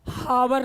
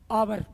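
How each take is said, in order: First: The word begins with an audible h sound. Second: The word begins directly with a vowel sound. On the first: The speaker calls it wrong. "हावर नहीं" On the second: The speaker calls it right.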